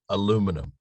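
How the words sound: It is said the American and Canadian way.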